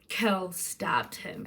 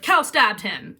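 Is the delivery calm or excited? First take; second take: calm; excited. First: It is said flatly, with calm low energy. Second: It is said with lively, excited high energy. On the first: The event feels unremarkable. "it sets it so up to be chill" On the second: The event feels dramatic. "read it in an exciting way"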